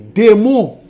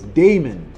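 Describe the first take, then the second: First: It is pronounced the Haitian Creole way. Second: It is pronounced the American English way. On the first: It means demon. "but it is démon in Creole" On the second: It is a person's name. "In English, in her accent, she says"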